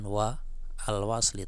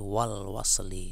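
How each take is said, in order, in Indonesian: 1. Vokal dari 'al' dibaca terpisah. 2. Vokal dari 'al' dihilangkan dan disambung. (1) "Ini lagi bukan"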